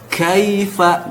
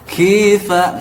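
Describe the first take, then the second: First: The first vowel is said with an open mouth. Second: The first vowel is said with a narrow mouth. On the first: The speaker calls it right. "Kalau mulutnya sudah terbuka, maka insya Allah akan fasih" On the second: The speaker calls it wrong. "akibat kurang terbuka mulutnya"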